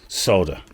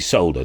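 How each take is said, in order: First: The L sound is left out. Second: The L sound is clearly pronounced. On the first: This is how it is said in America. "in America, they they leave the L out" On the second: This is how it is said in the UK. "in the U K, we definitely say solder"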